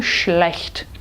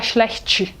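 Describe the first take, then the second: First: Schlecht ending sharply on t, no vowel; explosive end. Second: Schlecht with an extra chi at the end; wrong vowel ending. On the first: Shown as a demonstration. Teacher modelling schlecht. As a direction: cut schlecht off on the t. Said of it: "ela tem que ser explosiva". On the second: Retold or imitated. Teacher imitating the Brazilian schlecht. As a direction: add a vowel after schlecht. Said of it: "a gente não poderia falar".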